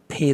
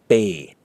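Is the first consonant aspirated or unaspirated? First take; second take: aspirated; unaspirated. First: The p has a strong puff of air. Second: The p has no puff of air. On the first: The speaker calls it wrong. "not as pay as in pay the bill" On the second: The speaker calls it right. "It is the B from spoon or spam"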